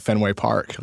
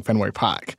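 First: Said in the usual way. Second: "Park" said as "Pahk"; Boston-style "Fenway Park" with no R; dropped R. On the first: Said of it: "that sounds like park". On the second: Shown as a demonstration. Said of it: "I don't think I'm saying".

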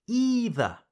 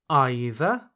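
First: Either starting with EE, higher and falling; EE-ther. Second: Either starting like EYE, rising; EYE-ther. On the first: Teacher offers second correct option, either as EE-ther. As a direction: say either with a long E. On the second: Teacher offers first correct option, either as EYE-ther. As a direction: say either with a long I. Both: Shown as a demonstration. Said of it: "Both pronunciations are correct".

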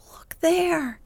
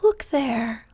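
First: Second look there pitched higher, rising eagerness; excited urging. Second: Excited urging. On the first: Sisters urging Beth to look, excited higher call. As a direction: lift the second look there up high, pointing. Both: A narrator's reading. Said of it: "all pointing and all saying at once".

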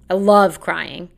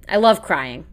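First: Slower, leaning on "love" in "I love crying"; emphatic repeat. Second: Said in the usual way. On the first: Shown as a demonstration. Vlogger insisting to viewers she loves crying, slow emphatic repeat.

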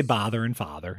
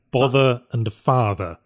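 First: "bother and father" with the same Wisconsin vowel; deep Wisconsin accent. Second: "Bother and father" with different vowels, slow and careful; British "Bother and father", vowels kept apart. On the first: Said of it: "That's my deep Wisconsin accent right there". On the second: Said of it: "they told me to say the words bother and father". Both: Shown as a demonstration.

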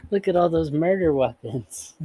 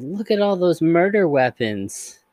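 First: Put-on high, childlike and cheery; sing-song it like a sweet creepy kid; cheerful little girl voice. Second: High, slow and sweetly cheerful; inappropriately cheerful. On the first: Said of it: "adorable and creepy". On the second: A narrator's reading. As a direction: say it brightly like a happy child. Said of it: "cheerfully says".

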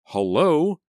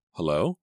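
First: High, loud yelled hello. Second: HELLO with a sharp rise at the end; questioning hello. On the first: Selena interrupted by the phone, yelling. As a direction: yell it into the receiver, irritated. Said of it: "she yelled into the receiver". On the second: Selena picking up HELLO on the phone, questioning rise. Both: A narrator's reading.

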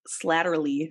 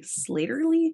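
First: Slatterly said as SLAT-ter-ly, short a; Slatterly with a flat short a in the first syllable; first guess at the name. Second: Slatterly said as SLAY-ter-ly, rising and unsure; Slatterly with a long ay sound, pitched up as a question; unsure retry of the name. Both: Real, not acted.

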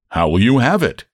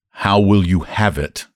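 First: Said in the usual way. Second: Slower, deliberate repeat of a question; patient, measured re-asking. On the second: A narrator's reading. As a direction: spell it out slowly for someone who missed it. Clerk repeats after a baffled "What?.

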